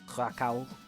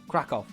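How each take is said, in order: First: The name is said with an English pronunciation. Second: The name is said with a Polish pronunciation. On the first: The speaker calls it wrong. "me being British and not saying stuff right" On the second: The speaker calls it right. "Krakow is how you guys say it, right?"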